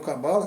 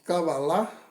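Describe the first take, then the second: First: The word is pronounced the usual Brazilian way. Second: The word is pronounced the Hebrew way. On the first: The speaker calls it wrong. "como se costuma pronunciar aqui no Brasil" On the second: The speaker calls it right. "A pronúncia correta no hebraico é realmente Kabbalah"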